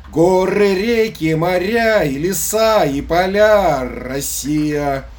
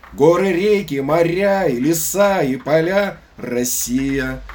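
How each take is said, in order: Both takes have the same delivery.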